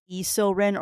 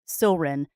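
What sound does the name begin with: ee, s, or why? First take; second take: ee; s. First: The name begins with an added ee sound. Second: The name begins directly with an s sound. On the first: The speaker calls it wrong. "many many people do it as E Silrin" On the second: The speaker calls it right. "the Y is silent"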